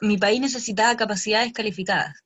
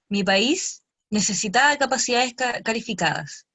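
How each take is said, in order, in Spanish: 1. No hay pausa después de 'mi país'. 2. Hay una pausa corta después de 'mi país'. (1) "la frase es" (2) "después de mi país, inventar como una coma invisible"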